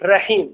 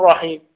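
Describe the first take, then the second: First: The r sound is light and thin. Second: The r sound is heavy and full. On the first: The speaker calls it wrong. "لم يفخم الراء" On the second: The speaker calls it right. "ولم يقل رحيم"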